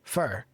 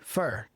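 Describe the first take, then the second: Both takes have the same delivery.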